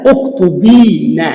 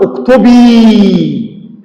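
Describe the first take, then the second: First: "اكتبين" said slowly, with the final ن clearly sounded; original form. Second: "اكتبي" said very slowly, ending on a plain ي with no ن; correct form, drawn out. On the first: Teacher showing the underlying form before the nun drops, slow demo. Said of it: "أصل الكلام". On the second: Teacher giving the correct imperative to students, slow demo. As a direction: stretch "اكتبي" without the nun. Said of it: "أقول". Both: Shown as a demonstration.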